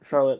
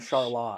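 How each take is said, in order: First: The name uses the usual North Carolina pronunciation. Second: The name uses the Vermont town's pronunciation. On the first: This names the big city in North Carolina. "the actual, the real" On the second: This names the small town in Vermont. "in Vermont, where we're from, we have a town that's spelled identical, but we call it Charlotte"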